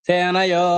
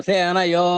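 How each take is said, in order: Both takes have the same delivery.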